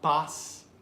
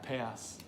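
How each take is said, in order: First: The vowel is an open 'ah' sound. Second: The vowel is a flat, front 'ae' sound. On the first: The speaker calls it wrong. "and not pas" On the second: The speaker calls it right. "Make sure it's ea"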